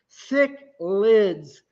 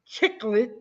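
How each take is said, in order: First: The word begins with an s sound. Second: The word begins with a ch sound. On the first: The speaker calls it right. "Just think of the word sick and lids" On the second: The speaker calls it wrong. "I have heard chiclet"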